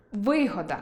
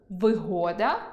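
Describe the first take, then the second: First: Вигода stressed on и, ви́года, falling; stress on the first syllable. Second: Вигода stressed on о, виго́да, rising; stress on the middle syllable. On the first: Teacher revealing ви́года. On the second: Teacher revealing виго́да. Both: Shown as a demonstration. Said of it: "Ось ця пара слів".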